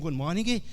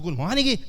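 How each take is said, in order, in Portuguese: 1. É dito em volume normal. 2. É dito bem mais alto.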